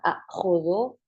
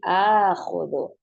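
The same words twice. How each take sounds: First: The word opens with two glottal catches in a row. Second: The word opens with one long drawn-out vowel. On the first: This is the underlying original form. "aslinya adalah akhudhu. Kemudian ketika bertemunya dua hamzah itu berat" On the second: This is the actual form used. "akhirnya di madkan, akhirnya hamzahnya menjadi akhudhu"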